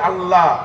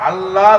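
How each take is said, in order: First: The L is said thin and light. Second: The same.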